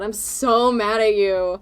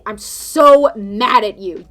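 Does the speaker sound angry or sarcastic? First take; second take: sarcastic; angry. First: It sounds sarcastic rather than truly angry. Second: It sounds genuinely and seriously angry. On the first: The speaker is not actually upset. "that's probably sarcasm because it sounds different" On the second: The speaker is really upset. "then you know I'm probably really mad"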